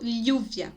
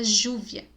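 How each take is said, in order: First: The first sound is said like a double L. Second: The first sound is not said like an L. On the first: This is the speaker's own regional way. "Eu falo lluvia, como se fosse dois L's" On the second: This is another speaker's regional way. "A professora de espanhol do positivo fala júvia"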